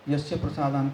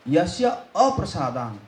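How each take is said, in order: First: No extra 'a' sound is heard before 'prasadan'. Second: An 'a' sound is heard before 'prasadan'. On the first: It would mean by whose grace. The speaker calls it wrong. "वहाँ पे लोग गलती करते हैं" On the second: It means by whose displeasure. The speaker calls it right. "आपका अप्रसाद"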